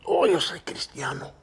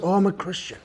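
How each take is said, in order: First: Barely audible whisper; low murmur. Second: Soft, low murmur; real low voice. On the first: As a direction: mumble it shyly under your breath. (susurro tímido) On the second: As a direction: say it quietly, embarrassed. (voz muy baja y apenada) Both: Retold or imitated. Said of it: "he tells me in a real low voice".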